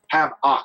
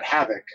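First: The second syllable sounds like 'ock'. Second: The second syllable sounds like 'ick'. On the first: This is how the announcer kept saying the name. The speaker calls it wrong. "like two words, like Doc Ock" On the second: This is the name's real pronunciation. The speaker calls it right. "not like H-A-V-I-C or I-K"

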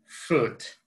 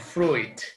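First: The i is silent in the word. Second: The i is sounded in the word. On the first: The speaker calls it right. "you need to say fruit" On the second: The speaker calls it wrong. "no fruit"

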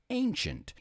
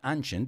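First: The word is said with the standard English pronunciation. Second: The word is said with a common learner pronunciation. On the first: The speaker calls it right. "It's ancient" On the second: The speaker calls it wrong. "I've heard a lot of students say ancient. It's not ancient"

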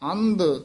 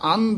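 First: The final consonant sounds like a d. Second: The final consonant sounds like a t. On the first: The speaker calls it wrong. "ਇਸ ਤਰ੍ਹਾਂ ਦੱਦੇ ਨਹੀਂ ਬੋਲਨੇ" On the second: The speaker calls it right. "ਤਦੇ ਉਚਾਰਨ ਕਰਨੇ ਐ"

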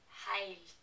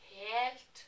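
First: The vowel is an ei diphthong. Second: The vowel is a plain e sound. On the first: "they would say heilt" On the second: "I would say helt"

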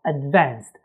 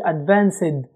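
First: The ending is said as a short t sound. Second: The ending is said as a separate syllable. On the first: The speaker calls it right. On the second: The speaker calls it wrong.

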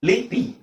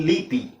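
The two takes are said the same way.

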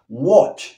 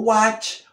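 First: The vowel sounds like an 'o'. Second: The vowel sounds like an open 'a'. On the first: The speaker calls it right. "esa O, A como O" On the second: The speaker calls it wrong. "no watch"

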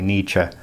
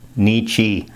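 First: The name is said with a German-sounding pronunciation. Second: The name is said with an American-sounding pronunciation. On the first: "I'm used to sort of saying it in a more Germanic way" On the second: "A lot of Americans pronounce it like Nietzsche, Nietzsche. ... that's sort of the Americanized version"

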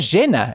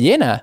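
First: The first sound is like English sh. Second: The first sound is like English y.

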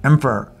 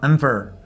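First: The second vowel is a reduced schwa. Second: The same.

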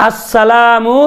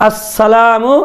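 The two takes are said the same way.

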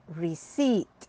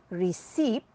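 Both takes have the same delivery.

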